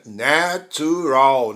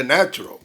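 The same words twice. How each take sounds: First: Slow "Natural" in three full beats, na-tu-ral; three-syllable natural. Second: "Natural" run together as na-tral; two-beat "Natural"; reduced natural. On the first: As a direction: sound the middle "tu" of "Natural". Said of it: "Parece que deveria ter três". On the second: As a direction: say "Natural" short, middle vowel swallowed. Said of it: "ela acaba repetindo aí". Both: Shown as a demonstration.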